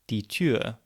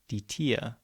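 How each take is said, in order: First: The vowel in the second word is rounded. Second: The vowel in the second word is unrounded. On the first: "the example of die Tür" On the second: "sometimes being pronounced as"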